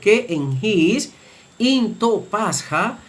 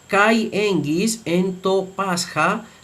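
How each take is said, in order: First: The first word sounds like 'ke', with a plain vowel. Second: The first word sounds like 'kai', with a diphthong. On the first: "según la pronunciación reucliniana debe leerse" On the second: "según la pronunciación erasmiana se lee y translitera de la siguiente manera"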